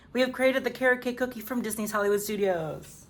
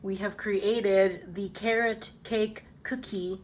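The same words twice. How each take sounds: First: Said in the usual way. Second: Slow, measured reveal of the finished bake; slow announcement. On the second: Real, not acted. Baker presenting her finished cookie to viewers, slow announcement. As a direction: announce it word by word, drawn out.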